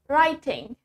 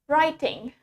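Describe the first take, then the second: First: British accent, with a clearly spoken T. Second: British accent, with a clearly spoken T.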